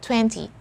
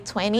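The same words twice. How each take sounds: First: The T after the n is clearly pronounced. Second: The T after the n is dropped. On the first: "people here just say uh, twenty" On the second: "I sometimes automatically say twenty"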